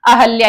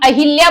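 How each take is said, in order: First: No i vowel follows the h sound. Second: An i vowel follows the h sound. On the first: The speaker calls it right. "सही शब्द क्या होता है? अहल्या ही होता है" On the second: The speaker calls it wrong. "हम अहिल्या बोलते हैं"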